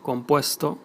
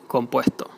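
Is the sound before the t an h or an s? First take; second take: s; h. First: The s before the t is a clear s. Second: The s before the t sounds like h. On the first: "compuesto would be" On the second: "would be compuesto"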